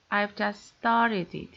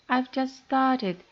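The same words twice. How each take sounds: First: "started" stressed and drawn out, falling. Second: "started" pitched high and drawn out, then falling; surprised reply, punch "started" higher; special emphasis on STARTED. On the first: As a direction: put ordinary stress on "started", unhurried. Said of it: "The word started is stressed". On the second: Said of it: "in the second dialect it's especially emphasized". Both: Shown as a demonstration.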